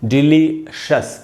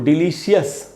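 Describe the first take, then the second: First: The ending is said as one syllable, shus. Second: The ending is said as two syllables, shee-us. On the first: The speaker calls it right. "इसको शियस नहीं पढ़ के शस पढ़ना है" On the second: The speaker calls it wrong. "इसको डिलीशियस नहीं पढ़ के पढ़ना चाहिए"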